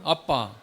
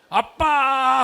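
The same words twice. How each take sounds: First: The word is said short and plain. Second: The word is drawn out long.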